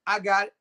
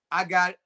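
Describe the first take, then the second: No difference in how they are said.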